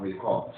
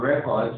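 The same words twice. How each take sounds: First: "record" as a verb, ri-KORD; second-syllable stress. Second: "record" as a noun, REK-ord; first-syllable stress. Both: Shown as a demonstration. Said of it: "You can notice the stress change".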